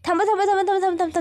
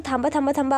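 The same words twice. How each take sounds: First: High, loud, urgent yell of थांबा; sudden loud shout. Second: Said in the usual way. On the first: Acted. Krishna suddenly yells at Dushyant to stop the car, loud urgent shout. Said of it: "Krishna अचानक जोरात ओरडते". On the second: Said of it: "आवाज ऐकून".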